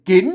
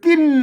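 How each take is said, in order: First: The word is said with a rising tone. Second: The word is said with a falling tone. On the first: "เสียงจัตวา" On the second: "เสียงโท"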